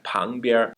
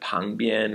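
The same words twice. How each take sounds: First: The word ends with an r sound. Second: The word ends without an r sound. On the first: "we have" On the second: "Instead of"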